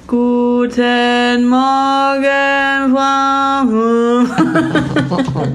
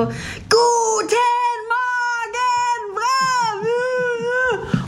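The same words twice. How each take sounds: First: The greeting is said tiredly, without energy. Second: The greeting is said with lively energy.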